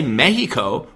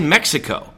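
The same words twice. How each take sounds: First: It is pronounced the way locals say it. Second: It is pronounced the American English way. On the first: This is how the locals say it. The speaker calls it wrong. "we don't say Mexico" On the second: This is how Americans say it. The speaker calls it right. "We say Mexico"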